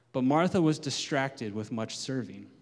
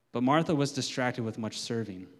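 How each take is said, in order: Both takes have the same delivery.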